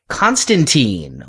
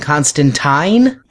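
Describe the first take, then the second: First: The name is said the film's way. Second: The name is said the comics' way. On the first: "or should I say" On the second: "I guess I should switch over to saying Constantine?"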